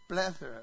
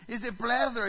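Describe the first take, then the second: First: Said in the usual way. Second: "plethora" with a light Spanish accent, flat-a "plah-THO-ra", said louder and higher; playful Spanish accent. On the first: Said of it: "Everybody say it with me". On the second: Shown as a demonstration. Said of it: "Can I say it with a little Spanish accent?".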